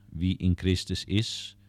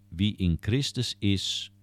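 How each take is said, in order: No difference in how they are said.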